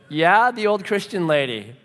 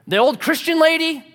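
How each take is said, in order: First: Acted reluctant admission, less forceful; sheepish confirmation. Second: Loud, high-pitched disbelieving question; mock disgusted query; scornful incredulity. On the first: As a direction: confirm it awkwardly to a grouch. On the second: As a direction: imitate the grouchy neighbor, voice shooting up. Mean neighbor's incredulous question.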